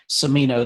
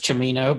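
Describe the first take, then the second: First: The name is said with English pronunciation. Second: The name is said with Italian pronunciation. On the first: "that's more more common" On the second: "the Italian pronunciation is"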